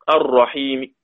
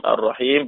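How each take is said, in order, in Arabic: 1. الحركة قصيرة وتُسمع حركة خفيفة في الآخر. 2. تُمدّ الحركة ويُوقف الآخر وقفًا تامًا. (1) "ثم الروم مع القصر" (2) "المد مع السكون المحض ... بالطول"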